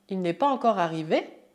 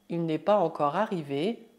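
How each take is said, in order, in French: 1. La voix monte à la fin. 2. La voix descend ou reste plate à la fin. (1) "se torna" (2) "a frase il n'est pas encore arrivé"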